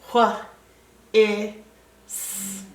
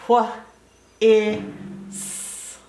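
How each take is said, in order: No difference in how they are said.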